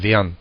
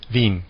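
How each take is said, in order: First: It is said in Viennese dialect. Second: It is said in standard German.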